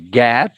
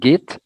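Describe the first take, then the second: First: The vowel is the open e sound. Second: The vowel is the short i sound. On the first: The speaker calls it right. "You have to say it this way" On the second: The speaker calls it wrong.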